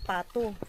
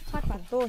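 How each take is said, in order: First: The word begins with a p sound. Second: The word begins with an f sound. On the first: The speaker calls it wrong. "hindi pato" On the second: The speaker calls it right. "Fato, hindi pato"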